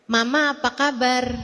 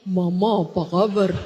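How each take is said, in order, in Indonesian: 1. Suaranya tinggi dan ringan. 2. Suaranya rendah dan berat. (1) "Dari yang asalnya" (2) "suaranya menjadi besar"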